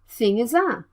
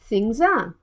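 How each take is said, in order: First: The word 'is' is said as a full syllable. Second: The word 'is' shrinks to an s sound.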